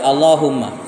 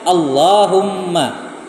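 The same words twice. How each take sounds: First: The l sound is short, not doubled. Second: The l sound is held long, doubled. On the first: The speaker calls it wrong. "karena lamnya tidak tasdid, dia baca" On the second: The speaker calls it right.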